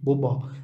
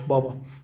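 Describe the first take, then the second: First: The first vowel is rounded, close to u. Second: The first vowel is a full open a. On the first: "في لهجة البحر الأسود يقولون بوبا بوبا، يعني تصبح هذه قريبة من الواو" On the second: This is the standard Istanbul way. "اللهجة في يعني الرسمية في إسطنبول بابا بابا مفخم طبعا"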